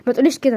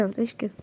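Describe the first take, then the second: First: Said in the usual way. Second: Drops to a near hush on the repeat; tender, much softer reassurance; soft murmur. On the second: Acted. Reassuring her, the repeat much softer.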